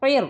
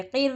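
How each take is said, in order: First: क़िर with a thick, heavy R; full R. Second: क़िर with a light, thin R; thin R, wrong reading. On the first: Teacher correcting the thin reading for students, क़िर with heavy R. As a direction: round out the R of क़िर so it sounds full. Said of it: "ये रॉ को भी पुर करेंगे". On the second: Teacher showing students the mistake, क़िर with thin R. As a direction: keep the R of क़िर fine, not heavy. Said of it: "रॉ बारीक हो जाता है इसमें". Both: Shown as a demonstration.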